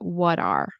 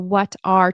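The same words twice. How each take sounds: First: The two words are run together and reduced. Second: The two words are said separately and fully. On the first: "turns into" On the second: "The what are"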